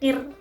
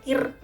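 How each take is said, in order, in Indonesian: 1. Bunyi r diucapkan tipis, lidah datar. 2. Bunyi r diucapkan tipis, lidah datar.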